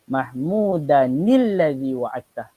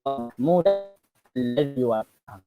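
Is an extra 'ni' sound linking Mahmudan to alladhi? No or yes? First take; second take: yes; no. First: A linking 'ni' sound joins Mahmudan to alladhi. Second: No linking 'ni' sound joins Mahmudan to alladhi. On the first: "Kalau nak sebut" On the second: "seandainya tak nak sebut"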